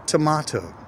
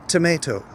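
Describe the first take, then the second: First: TOMATO as tə-MAH-toh; ah-vowel variant. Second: TOMATO as tə-MAY-toh; may-vowel variant. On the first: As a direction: say Tomato with MAH in the middle, weak first O. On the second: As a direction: say tomato with MAY in the middle, weak first O. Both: Shown as a demonstration. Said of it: "if you pronounce tomato or tomato".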